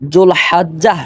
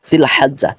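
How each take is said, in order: First: The first vowel is a 'u' sound. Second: The first vowel is an 'i' sound. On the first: The speaker calls it wrong. "জুল হাজ্জাহ সঠিক উচ্চারণ নয়" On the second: The speaker calls it right. "তখন উচ্চারণ হবে জিল হাজ্জা"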